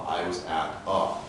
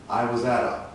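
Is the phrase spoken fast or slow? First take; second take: slow; fast. First: The phrase is spoken slowly. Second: The phrase is spoken quickly. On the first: "Let's go slowly"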